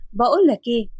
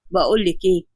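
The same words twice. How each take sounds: First: Said in the usual way. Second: Curt doctor. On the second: Acted. Adam cuts her off.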